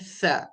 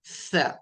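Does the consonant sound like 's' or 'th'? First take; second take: th; th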